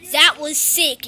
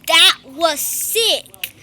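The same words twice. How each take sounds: First: Said in the usual way. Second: That was sick stretched very slowly; very slow, savoured. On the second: Real, not acted. Gamer savouring the moment to viewers, very slow. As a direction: linger on each word of That was sick.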